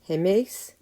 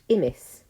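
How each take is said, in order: First: It begins with an h and an 'eh' vowel. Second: It begins with an 'ee' vowel and no h. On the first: "I'm deliberately using a more classical pronunciation" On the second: "in modern Greek, both are pronounced imis"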